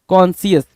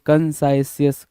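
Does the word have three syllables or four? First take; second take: three; four. First: It is said with three syllables, 'kon-si-yas'. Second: It is said with four syllables, 'kan-sai-si-yas'. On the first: The speaker calls it right. "कॉन्सियस बोलते हैं" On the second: The speaker calls it wrong. "कंसाइसियस भी नहीं बोलते"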